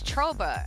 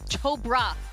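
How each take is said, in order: First: The R sound in the name is dropped. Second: The R sound in the name is pronounced. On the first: The speaker calls it wrong. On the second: The speaker calls it right. "let me pronounce the R"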